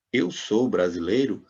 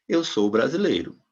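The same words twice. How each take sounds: First: Slow "Eu sou brasileiro" rising at the end; "Eu sou brasileiro" drawn out, ending upward as a question; question intonation. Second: "eu sou brasileiro" with a falling end; "eu sou brasileiro", stress on "eu", closing on a fall; statement intonation. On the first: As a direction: ask "Eu sou brasileiro" with a final lift. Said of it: "em interrogação". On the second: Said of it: "uma afirmação". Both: Shown as a demonstration.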